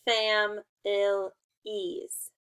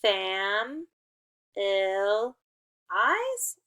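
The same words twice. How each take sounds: First: Fam, ill, ease in slow separate pieces, ending like "ease"; sounded-out syllables. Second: Fam, ill, eyes in slow separate pieces, ending like "eyes"; sounded-out syllables. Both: Shown as a demonstration. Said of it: "Could be E's or could be I's".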